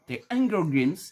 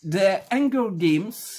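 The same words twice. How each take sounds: First: It is said with an English accent. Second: It is said with a French accent.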